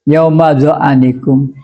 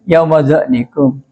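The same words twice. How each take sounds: First: The ain is followed by a short a vowel. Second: The ain is followed directly by the next consonant. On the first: "membaca fathah ain" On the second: "Kan sukun ini"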